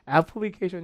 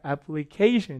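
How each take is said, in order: First: The syllables are said evenly with no strong stress. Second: One syllable carries a strong, clear stress. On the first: The speaker calls it wrong. "우리말은 이렇지만" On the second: The speaker calls it right. "리듬을 타서 찍어줘야 되는데 강세가 여기 있어요"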